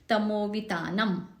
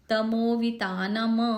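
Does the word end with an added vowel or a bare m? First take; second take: bare m; added vowel. First: The final m is cut short, with no vowel. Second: The final m is released with a vowel. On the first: The speaker calls it right. "उसका उच्चारण आधा ही होना चाहिए" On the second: The speaker calls it wrong. "ऐसे नहीं करेंगे"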